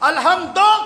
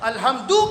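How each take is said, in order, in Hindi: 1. शब्द 'o' स्वर पर खत्म होता है। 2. शब्द 'oo' स्वर पर खत्म होता है। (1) "अल्हम्दो क्यों कहते हैं?" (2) "अल्हम्दु कहिए।"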